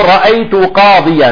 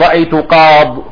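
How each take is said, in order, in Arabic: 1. الكلمة الأخيرة تنتهي بالنهاية الكاملة 'iyan'. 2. الكلمة الأخيرة مقطوعة، وتنتهي بـ 'qad'. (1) "تقول رأيت قاضيا" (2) "لا يجوز أن تقول"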